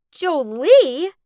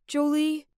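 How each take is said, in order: First: Loud, rising cry of disbelief; shocked shout. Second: Said in the usual way. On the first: A narrator's reading. Spurned girl hearing another name in his proposal, shocked shout. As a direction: shout the name as a stunned question. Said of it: "I shouted".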